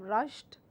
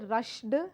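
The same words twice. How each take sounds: First: The ending is a plain t sound. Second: The ending is not a plain t sound. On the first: The speaker calls it right. "Rush would become rushed" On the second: The speaker calls it wrong. "I cannot say rushed"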